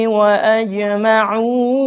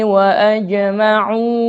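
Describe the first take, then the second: No difference in how they are said.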